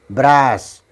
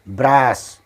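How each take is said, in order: Both takes have the same delivery.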